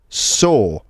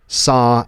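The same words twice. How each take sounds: First: It is said in a Cockney accent. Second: It is said in an American accent. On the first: "in a Cockney accent they're going to sound like" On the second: "In American English are like"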